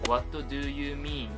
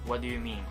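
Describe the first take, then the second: First: Each word is said separately and clearly. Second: The words run together with linked sounds.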